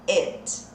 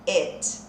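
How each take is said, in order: The two takes are said the same way.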